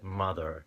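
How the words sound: The final R sound is clearly pronounced. "I tend to roll it just so people understand me"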